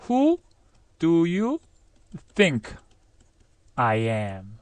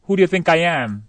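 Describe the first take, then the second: First: WHO, DO YOU, THINK, I AM with pauses between; careful step-by-step build-up; slow model sentence. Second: One fluent question at normal speed; linked-up, conversational delivery; natural connected version. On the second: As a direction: run WHO DO YOU THINK I AM together. Same sentence run together. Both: Shown as a demonstration.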